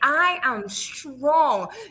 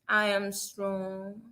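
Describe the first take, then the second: First: It is said strongly, with much energy. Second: It is said weakly, with little energy.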